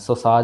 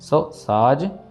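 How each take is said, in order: First: The two words are run together as one. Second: The two words are kept separate. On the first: The speaker calls it wrong. "सो साज नहीं कहना इसको" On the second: The speaker calls it right. "इनको अलग अलग पढ़ना, जोड़ना नहीं है"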